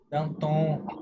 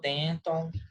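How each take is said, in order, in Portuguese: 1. O nome é pronunciado com pronúncia francesa. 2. O nome é pronunciado com pronúncia estilo inglês. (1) "Atenção, eles são franceses" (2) "tem muita gente que falou Denton"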